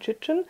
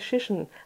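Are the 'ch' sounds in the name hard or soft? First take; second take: hard; soft. First: The ch sounds are hard, like tch. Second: The ch sounds are soft, like sh. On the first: "so hart wie ich" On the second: "so sanft wie Shishen"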